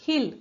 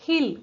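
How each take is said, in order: Both takes have the same delivery.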